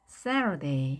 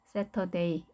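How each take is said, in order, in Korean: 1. 강세 있는 음절 주변에서 높낮이가 올라갔다 내려가요. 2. 분명한 강세 없이 높낮이가 평평하게 유지돼요. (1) "Saturday 이렇게 읽게 되는 겁니다" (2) "이것도 아닌 거죠. 높낮이가 있습니다"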